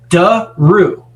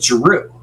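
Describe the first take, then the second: First: The word's sounds are crisply over-enunciated. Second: The word is said in a plain, casual way. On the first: This is how the ring announcer says it. "how she enunciates the letters" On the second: This is how the name is normally said. "she doesn't say Drew"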